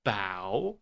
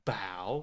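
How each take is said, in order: First: The vowel is a wide-open 'ow' sound. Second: The vowel is a wide-open 'ow' sound.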